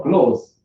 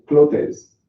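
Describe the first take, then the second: First: CLOTHES in one syllable, like "close"; alternative pronunciation. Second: CLOTHES in two syllables, clo-tes; learner's mispronunciation. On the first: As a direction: say "clothes" with no TH, just cloze. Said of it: "or clothes". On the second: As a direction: say "clothes" with a T and a sounded E. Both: Shown as a demonstration.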